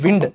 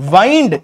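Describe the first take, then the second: First: The vowel is short, as in 'win'. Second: The vowel is long, as in 'wine'. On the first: It is the noun meaning moving air. "ఇది noun" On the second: It is the verb meaning to turn or wrap. "ఇది verb"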